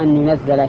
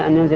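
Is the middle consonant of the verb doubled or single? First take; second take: doubled; single. First: The z sound is doubled and held longer. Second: The z sound is short, not doubled. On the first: It is sent down bit by bit. "ولا أن ينزل شيئا فشيئا" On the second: It is sent down all at once. "لا يودون أن ينزل الشيء الخير جملة واحدة"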